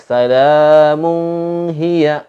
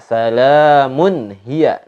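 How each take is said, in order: First: The n is held with a nasal hum. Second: The n is short and clear, no hum. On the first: The speaker calls it wrong. "Enggak boleh dibaca salamun hiya" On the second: The speaker calls it right. "Tapi dibaca salamun hiya"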